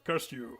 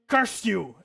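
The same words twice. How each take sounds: First: It is said in a very deep voice. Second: It is said in a normal voice. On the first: The speaker calls it right. "Curse you with a really deep voice" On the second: The speaker calls it wrong. "that was fucking terrible"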